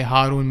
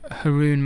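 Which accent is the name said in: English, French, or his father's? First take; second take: father's; English. First: It is said the way his father says it. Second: It is said in an English accent.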